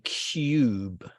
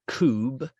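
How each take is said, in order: First: A 'y' glide comes before the 'oo' vowel. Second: The vowel comes with no 'y' glide before it. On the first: The speaker calls it right. "we say cube" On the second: The speaker calls it wrong. "we don't say cube"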